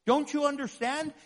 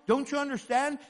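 No difference in how they are said.

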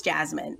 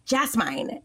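First: Said in the usual way. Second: "Jasmine" with last syllable like "mine"; wrong long-i ending on "Jasmine"; mispronounced Jasmine. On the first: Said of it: "Oh, it's Jasmine". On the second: Retold or imitated. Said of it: "they were like".

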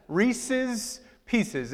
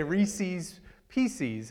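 First: Reese's Pieces with Reese's said as REE-siz, the possessive ending; Reese's Pieces as REE-siz PEE-siz, the proper possessive; correct possessive. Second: Reese's Pieces with Reese's said REE-seez, rhyming with Pieces; slow, drawn-out REE-seez PEE-seez, said the local Ohio way. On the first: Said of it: "It is Reese's family". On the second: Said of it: "we say Reese's Pieces". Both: Shown as a demonstration.

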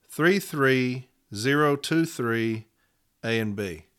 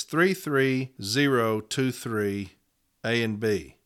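First: Slowly repeating the case number. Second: Numbers read out slowly; slow dictation. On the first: Union rep repeating the case number slowly for members. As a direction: say it again slowly so they can write it down. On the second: Union rep slowly reading a case number to members. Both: Shown as a demonstration. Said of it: "and here's those numbers".

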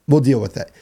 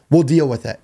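The two takes are said the same way.

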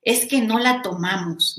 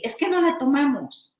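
First: Said in the usual way. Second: "Es que no la tomamos" quoted high, falling on "la"; higher-pitched retelling of "Es que no la tomamos"; high quote. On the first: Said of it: "cuando dice Eri". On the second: Retold or imitated. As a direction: echo Eri's words up high. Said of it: "nos decía Eri".

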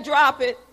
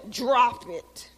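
First: Loud, commanding husband impression; loud mock command to a pet; imitated husband's command. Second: Acted-out pet command; mock dog command. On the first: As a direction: order the dog like a husband. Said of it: "My husband say". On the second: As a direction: imitate an owner giving a command. Imitates owner commanding the dog.

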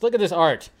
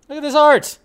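First: Said in the usual way. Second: Higher, louder admiring exclamation on "art"; excited. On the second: Real, not acted. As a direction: Look at this art, with "art" thrown up high and louder.

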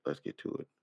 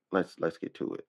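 First: Whispered, much softer. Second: Said in the usual way. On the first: Real, not acted. Whispering to himself as he starts the video. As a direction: breathe it to yourself. Repeats it under his breath. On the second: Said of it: "repeats it whispered".

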